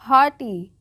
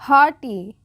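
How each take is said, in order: First: The 'gh' is silent, giving 'hawty'. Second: The 'gh' is silent, giving 'hawty'.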